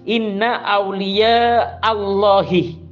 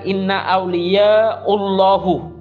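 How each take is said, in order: First: The last word ends with an 'ee' vowel. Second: The last word ends with an 'oo' vowel. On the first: The speaker calls it right. "hati-hati membacanya di sini" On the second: The speaker calls it wrong.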